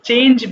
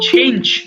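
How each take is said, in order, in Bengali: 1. প্রথম ব্যঞ্জনটি অল্পপ্রাণ। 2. প্রথম ব্যঞ্জনটি মহাপ্রাণ। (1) "দেখো আমরা চেঞ্জ বলি" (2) "উচ্চারণটা হবে ছ দিয়ে"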